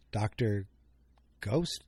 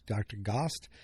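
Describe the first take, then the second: First: "Doctor Ghost" with a long oh sound; first try at the name. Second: "Doctor Gost" with a short open o; corrected name. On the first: Host names the doctor, first as "Doctor Ghost" with a long O. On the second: Host corrects the doctor's name to "Doctor Gost", short O. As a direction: say "Gost" to rhyme with lost. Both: Shown as a demonstration.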